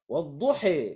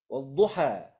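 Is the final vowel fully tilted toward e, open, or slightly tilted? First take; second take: fully tilted; open. First: The final vowel leans strongly toward e. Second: The final vowel is an open a sound. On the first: "ديت الإمالة" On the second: "ده الفتح"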